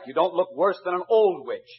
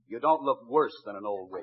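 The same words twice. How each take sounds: First: The word 'worse' is not stressed. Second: The word 'worse' is stressed.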